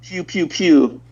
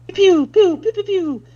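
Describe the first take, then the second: First: Laser noises. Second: Much higher, louder pew pew laser sounds; high laser zaps. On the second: Streamer answers chat about lasers with higher, louder zaps. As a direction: zap them out high like toy lasers. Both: Pretend. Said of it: "Speck with the lasers".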